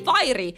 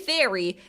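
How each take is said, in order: First: The first vowel sounds like 'fire'. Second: The first vowel sounds like 'fair'. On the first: It refers to the dishwashing soap brand. "if we say fiery, that's soap" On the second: It refers to cute storybook fairies. "If we say fairy, that's Disney fairies"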